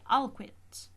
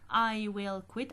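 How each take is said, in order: First: Will is shortened and joined to I. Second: The word will is said in full. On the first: "I say I'll quit" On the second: "instead of saying"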